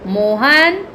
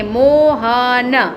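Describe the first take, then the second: First: Said in the usual way. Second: Very slow stretched reading; slow demo of Mohan; slow drawn-out word. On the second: Shown as a demonstration. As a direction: draw the word out for the kids. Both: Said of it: "तो कैसे लिखेंगे".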